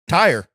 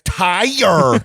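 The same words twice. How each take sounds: First: It is said in a plain, ordinary voice. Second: It is said in an exaggerated, affected put-on voice. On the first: "Just tire" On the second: "Let me say it the gayest way possible"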